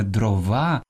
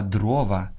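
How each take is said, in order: First: Дрова stressed on ВА; end-stressed дрова; wrong last-syllable stress. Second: Дрова stressed on ДРО; stress on first syllable. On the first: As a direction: say дро-ВА. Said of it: "Правильно казати не дрова". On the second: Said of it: "Правильно казати". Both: Shown as a demonstration.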